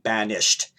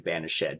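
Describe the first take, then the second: First: The word has two syllables, ending silent. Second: The word has three syllables, -ed voiced. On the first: "a two-syllable word" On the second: "you're supposed to pronounce it as ed"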